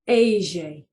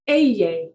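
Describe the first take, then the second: First: The double L is said the Buenos Aires way. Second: The double L is said the standard way. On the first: The pronunciation used in Buenos Aires. "Or if you're in Buenos Aires, it's pronounced Aye" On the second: The usual Spanish pronunciation. "it's pronounced Eye"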